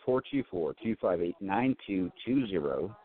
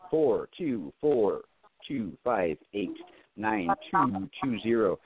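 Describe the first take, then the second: First: The number is read at normal speed. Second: The number is read more slowly.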